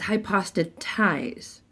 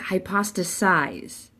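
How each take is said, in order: First: The last syllable starts with a t sound. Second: The last syllable starts with an s sound. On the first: The speaker calls it right. "It's hypostatize" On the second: The speaker calls it wrong. "they pronounced it wrong. They said hypostasize"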